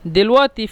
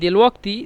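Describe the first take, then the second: First: The middle consonant is a glottal stop. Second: The middle consonant is a q sound. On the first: This is how Egyptians say it in speech. "মিশরীরা দেলওয়াতি বলে কফকে উচ্চারণ করে হামজা" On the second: This is the written standard form. "দেল ওয়াক্তি লিখে দিচ্ছি"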